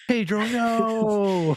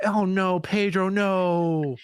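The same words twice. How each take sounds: First: Very slow, high mock lament; drawn-out wail. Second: High, dismayed "oh no"; alarmed protest, voice up high. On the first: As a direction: stretch it into a wail of grief. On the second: Real, not acted. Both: Dismay at Pedro being villain.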